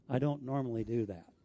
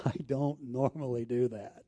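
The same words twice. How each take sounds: First: Said in the usual way. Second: Laughing repeat. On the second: Real, not acted. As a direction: chuckle through don't normally do that. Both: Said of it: "If you know me at all".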